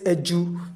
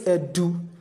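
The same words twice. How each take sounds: First: The middle consonant is a J sound. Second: The middle consonant is a clear D sound. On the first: The speaker calls it right. "We say edu. We pronounce J sound" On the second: The speaker calls it wrong. "We do not say edu. We do not pronounce D clearly"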